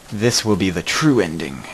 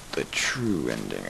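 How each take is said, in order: First: Said in the usual way. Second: Whispered, lower and slower; dramatic whisper. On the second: Shown as a demonstration. Streamer echoing his own line to viewers, slow and whispered. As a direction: breathe it like a secret omen.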